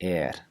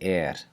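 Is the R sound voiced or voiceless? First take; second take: voiceless; voiceless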